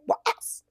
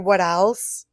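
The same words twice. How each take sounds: First: It imitates the sub guy, sounding mad. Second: It is said in a plain, neutral way.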